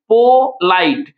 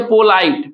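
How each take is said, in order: First: पोलाइट very slowly, po, then lite; पोलाइट drawn out in two separate parts; split into syllables. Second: Said in the usual way. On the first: Shown as a demonstration. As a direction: stretch both halves of पोलाइट. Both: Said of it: "हम लोग पढ़े पोलाइट".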